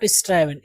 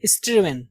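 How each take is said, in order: First: "स्ट्राइवन" with an 'eye' vowel, pitched lower; गलत उच्चारण. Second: "स्ट्रीवन" with 'i', not 'eye'; सही उच्चारण. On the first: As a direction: say "स्ट्राइवन" as is-TRIVE-en. ("स्ट्राइवन" का गलत उच्चारण, 'आइ' के साथ) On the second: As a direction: say "स्ट्रीवन" as is-TRIV-en. ("स्ट्रीवन" का सही उच्चारण, 'आइ' के बिना) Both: Shown as a demonstration. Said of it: "not स्ट्राइवन".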